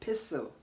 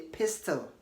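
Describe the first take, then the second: First: The T sound is silent in the middle. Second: A T sound is pronounced in the middle. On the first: The speaker calls it right. "Say pistol" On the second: The speaker calls it wrong. "don't say pistol"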